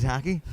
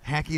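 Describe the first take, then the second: First: Said in the usual way. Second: "Hacky" with the a of hat, for hockey; imitated Michigan vowel. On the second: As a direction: echo her accented "Hacky", questioning. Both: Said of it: "That's hockey".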